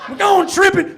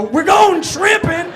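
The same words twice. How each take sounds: First: Higher, louder Southern bully chant; Southern repeat. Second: Slow, loud, high Southern drawl; mock Southern bullies. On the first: Retold or imitated. Comic repeating the bullies' taunt, Southern accent. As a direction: toss off the Southern taunt again, laughing. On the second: Tall kids taunting the short kid, mock Southern drawl. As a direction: stretch it out like a Southern bully. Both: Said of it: "I don't know why they were Southern".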